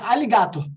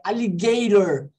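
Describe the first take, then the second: First: The final R is not an English R. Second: The final R is an English R. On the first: The speaker calls it wrong. "Ou não é alligator" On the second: The speaker calls it right. "é alligator. De novo, som de R"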